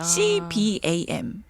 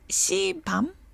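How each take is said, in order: First: The acronym is spelled out letter by letter. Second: The acronym is read as a single word. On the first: The speaker calls it right. "씨비에이엠이라고 부를게요" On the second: The speaker calls it wrong. "씨밤 좀 이상하다"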